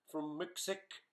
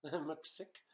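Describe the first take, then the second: First: Said in the usual way. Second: A small laugh through Mcsick, said with a rising tune; laughing at the name. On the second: Real, not acted. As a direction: chuckle as you repeat Mcsick, amused.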